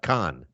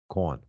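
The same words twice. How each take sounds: First: It is said like the usual name Khan. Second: It is said with a vowel like 'corn'. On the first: The speaker calls it wrong. "Not Khan" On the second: The speaker calls it right. "K A U N. ... it's like a Delco accent"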